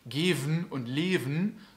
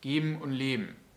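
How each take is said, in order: First: The middle consonant is a clear V sound. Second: The middle consonant is a blurred, B-like sound. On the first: "nicht so super deutlich geven und leven" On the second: "sondern geben und leben"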